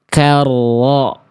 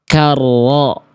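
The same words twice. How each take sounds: The two takes are said the same way.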